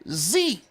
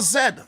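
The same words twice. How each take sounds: First: The letter is said as zee. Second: The letter is said as zed, English style.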